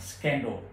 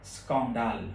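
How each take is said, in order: First: The word is pronounced with English sounds. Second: The word is pronounced with French sounds.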